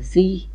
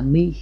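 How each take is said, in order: First: The syllable begins with a D sound. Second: The syllable begins with an M sound. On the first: This is the Vietnamese reading of the character. "Thế Việt Nam mình đọc là Di" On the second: This is the Chinese reading of the character. "nhưng mà Tàu người ta đọc là Mi"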